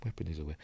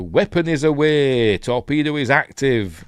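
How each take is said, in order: First: Soft, low throwaway repeat; offhand echo under the breath; muttered aside. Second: Loud, raised-pitch crew announcement; urgent film-style launch report; military call-out. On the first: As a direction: say it quietly to yourself. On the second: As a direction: call it out like a torpedo operator. Acting aircrew launching a torpedo. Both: Acted.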